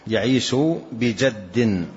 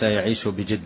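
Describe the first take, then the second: First: The last word is said with an 'a' vowel. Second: The last word is said with an 'i' vowel. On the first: The speaker calls it right. "بفتح الجيم" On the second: The speaker calls it wrong. "وليس بكسرها"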